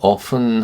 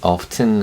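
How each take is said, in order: First: The T sound is left silent. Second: The T sound is clearly pronounced. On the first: "T 발음을 빼고 often 하기도 하고요" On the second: "어떤 사람들은 often 하기도 합니다. T 발음을 발음을 내서"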